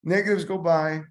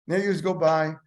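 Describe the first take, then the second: No difference in how they are said.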